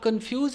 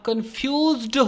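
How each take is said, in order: First: The word ends without a final d sound. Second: The word ends with a final d sound. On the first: The speaker calls it wrong. "आप कंफ्यूज नहीं हो" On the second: The speaker calls it right. "आप कंफ्यूज्ड हो"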